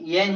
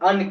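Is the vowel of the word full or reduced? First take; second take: full; reduced. First: The word has a full, strong vowel. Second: The word has a short, weak vowel. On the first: The word stands alone or the next word is emphasised. "येन का उच्चारण येन ही करते हैं" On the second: The word is said in ordinary speech. "येन का उच्चारण अन करते हैं"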